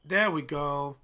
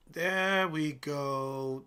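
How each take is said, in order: First: Said in the usual way. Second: Very slow, stretched satisfaction; drawn out. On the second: Real, not acted. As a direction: stretch every word out. Watching a trade move.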